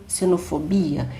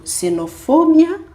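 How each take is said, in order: First: Xenofobia as "se-no-fo-BI-a"; stress on BI. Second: Xenofobia as "se-no-FO-bya"; stress on FO. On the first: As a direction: lean on the BI in xenofobia. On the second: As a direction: punch the FO in xenofobia. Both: Shown as a demonstration. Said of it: "qual é a sílaba tônica".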